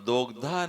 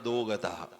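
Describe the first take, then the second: First: It is said as one joined word. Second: It is split into two separate words. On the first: The speaker calls it right. "दोग्धा नहीं बोल रहा" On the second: The speaker calls it wrong. "दोग्धा की जगह क्या बोलता? दो।"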